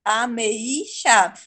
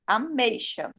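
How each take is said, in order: First: "Ameixa" broken up slowly as a-me-I-xa; separated, slow. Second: Said in the usual way. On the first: Shown as a demonstration. Teacher shows the wrong hiatus, "Ameixa" with a separate I. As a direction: pull the E and I apart in "Ameixa", slowly. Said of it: "aí ficaria separado". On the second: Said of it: "Eu não falo ameixa".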